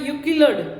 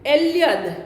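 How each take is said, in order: First: The name begins with a 'yu' sound. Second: The name begins with an 'e' sound. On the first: This is how a translator rendered the name. The speaker calls it wrong. "નગીનભાઈએ મિર્ચા યુકિલડ એવો ઉચ્ચારણ કર્યું છે" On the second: This is how the name should actually be said. The speaker calls it right. "હકીકતે એલ્યદ એવું ઉચ્ચારણ થવું જોઈએ"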